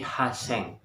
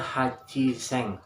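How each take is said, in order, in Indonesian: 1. Diucapkan dengan bunyi 's' yang dobel. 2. Diucapkan dengan suku kata 'chi' yang penuh. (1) "tetapi Haseng" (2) "bukan Hachiseng"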